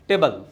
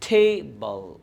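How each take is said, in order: First: Both syllables get equal weight. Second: One syllable is stressed more than the other. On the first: "हम Indian क्या करते हैं ... जो दोनों part है इक्वली बोलता है, evenly" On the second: "native English में किसी एक पे भार दिया जाता है"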